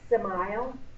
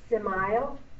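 No difference in how they are said.

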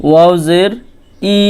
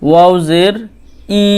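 No difference in how they are said.

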